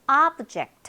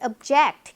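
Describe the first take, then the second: First: The stress is on the first syllable. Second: The stress is on the second syllable. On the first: It is a noun meaning a thing. "앞에 강세가 있을 때 명사" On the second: It is a verb meaning to oppose. "동사는 뜻이 달라요. 반대하다"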